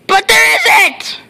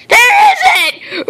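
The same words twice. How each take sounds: First: Said in the usual way. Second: A panicked yelp of disbelief; high laughing shout. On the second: Acted. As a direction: shout it much higher and louder, laughing. Repeated louder, higher.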